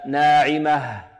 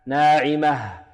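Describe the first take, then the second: No difference in how they are said.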